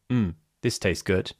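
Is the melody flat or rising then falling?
flat. The pitch stays fairly flat on mmm. The speaker does not sound heartfelt. "Instead of saying"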